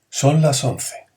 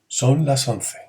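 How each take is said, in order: No difference in how they are said.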